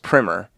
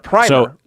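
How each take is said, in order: First: The first vowel is short, like in 'prim'. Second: The first vowel is long, like in 'prime'. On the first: It names a school book. "pronounced primer with two M's" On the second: It names a first coat of something. "rhyming with climber"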